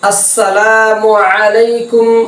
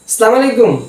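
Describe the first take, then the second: First: The opening catch and the 'mu' vowel are clear. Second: The opening catch and the 'mu' vowel are slurred. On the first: It is the proper traditional greeting. The speaker calls it right. "আসসালামু শব্দের হামজা এবং মিমের পেশকে স্পষ্ট করে" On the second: It is the careless everyday greeting. The speaker calls it wrong. "এভাবে আমরা বলে ফেলি"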